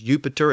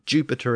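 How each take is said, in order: First: The word begins with a Y sound. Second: The word begins with a J sound. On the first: This is the older Latin pronunciation. "the Y sound became a J sound" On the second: This is the later pronunciation. "the Y sound became a J sound"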